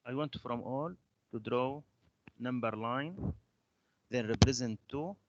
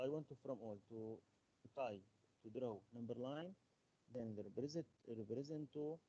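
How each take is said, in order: First: Louder, projected teacher instructions; raised voice. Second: Soft, barely projected instructions; low voice. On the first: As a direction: speak up so the class can hear. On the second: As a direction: give the instructions too quietly. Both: Real, not acted. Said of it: "your voice is so low".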